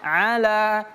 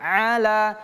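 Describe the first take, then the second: The two takes are said the same way.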